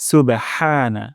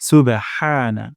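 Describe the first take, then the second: The two takes are said the same way.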